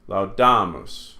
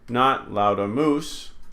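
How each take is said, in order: First: The stress is on the middle syllable. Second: The stress is on the last syllable. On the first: The speaker calls it right. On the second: The speaker calls it wrong.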